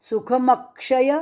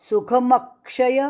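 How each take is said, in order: Both takes have the same delivery.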